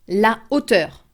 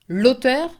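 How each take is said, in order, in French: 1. L'article garde sa voyelle devant le nom. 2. L'article perd sa voyelle et se lie au nom.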